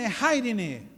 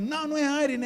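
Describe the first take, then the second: First: IRENE said as "HAI-ri-ni"; imitated correction, breathed H opening IRENE; corrected name, sounded H. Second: Higher IRENE said as "AI-ri-ni"; imitated correction, IRENE starting on the vowel; wrong name, no H. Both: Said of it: "Aí ela falava".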